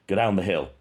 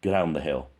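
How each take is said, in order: First: "Go" said crisply, the G hit hard and clear; overemphasized go. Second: "Go" with its G slurred, almost swallowed. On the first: Showing viewers the word clearly, overemphasized "Go". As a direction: punch the G of "Go" so it is fully heard. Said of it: "I overemphasize". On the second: Imitating the first recording, slurred "Go". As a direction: let the G of "Go" melt into the vowel. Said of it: "So it's like slurring the G". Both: Shown as a demonstration.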